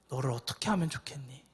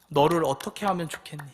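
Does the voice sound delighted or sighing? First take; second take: sighing; delighted. First: It is said with a deep, heavy sigh. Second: It is said in a fond, delighted tone. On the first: The speaker is deeply grieved by the listener. The speaker calls it right. "깊은 탄식을 하시는 겁니다" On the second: The speaker adores the listener. The speaker calls it wrong. "이게 막 좋아서 이뻐가지고"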